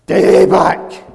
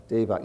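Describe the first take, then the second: First: DAEBAK shouted high and very loud; emphatic correct delivery. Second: Said in the usual way. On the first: Shown as a demonstration. Teacher showing how the word is really said, emphatic shout of Daebak. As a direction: belt out Daebak with full-force excitement. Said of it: "when I'm being taught this word". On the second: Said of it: "that's wrong".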